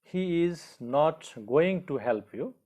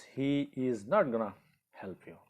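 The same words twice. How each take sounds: First: "going to" as two full words; slow, higher, with "going to" spelt out fully; long form. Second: "gonna" merged into one word; contracted form. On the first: Teacher reads the second sentence for learners, slow full "going to". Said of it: "in the second sentence". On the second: Teacher models the contracted form for learners, merged "gonna". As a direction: say "gonna" run together, pause before the last words. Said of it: "but in contracted form we use". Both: Shown as a demonstration.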